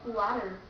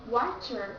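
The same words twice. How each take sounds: First: The middle T is a quick D-like flap. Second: The middle T is a clear, full T. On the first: The speaker calls it right. "but they say water" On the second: The speaker calls it wrong. "Americans don't say water"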